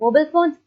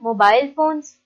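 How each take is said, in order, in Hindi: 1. यह अमेरिकन लहजे में बोला गया है। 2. यह गैर-अमेरिकन लहजे में बोला गया है। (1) "मोबाइल फोन्स अमेरिकन बोलते हैं" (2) "मोबाइल फोन्स बाकी सारे बोलते हैं"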